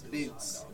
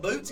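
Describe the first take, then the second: First: Boots is said in an imitated regional way. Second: Boots is said in a plain, ordinary way. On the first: "he says" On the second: "instead of"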